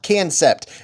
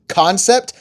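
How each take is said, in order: First: The first syllable sounds like 'can'. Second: The first syllable sounds like 'con'. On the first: The speaker calls it wrong. "not cancept" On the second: The speaker calls it right. "that is how you pronounce this"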